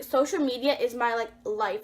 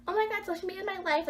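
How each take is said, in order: First: Said in the usual way. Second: High, fast, gushy mock teen; mock a drama-queen teenager, pitched up and rushed; put-on squeal of teenage devotion; typical teenager parody. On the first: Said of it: "I don't wanna be, sound like". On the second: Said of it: "like a typical freaking teenager these days".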